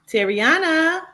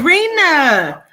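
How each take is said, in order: First: The name is said with four syllables, Terriana. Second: The name is said with three syllables, Tarina. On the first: The speaker calls it wrong. "my name is actually pronounced Tarina" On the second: The speaker calls it right. "my name is actually pronounced Tarina"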